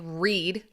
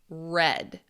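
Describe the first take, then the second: First: The vowel is long, like in 'need'. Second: The vowel is short, like in 'bed'. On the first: It is the base form of the verb. "this would be they would read" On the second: It is the past participle of the verb. "they had read"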